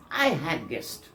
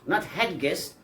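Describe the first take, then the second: First: Had guest with the D assimilated, "hag guest". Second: Said in the usual way. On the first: Shown as a demonstration.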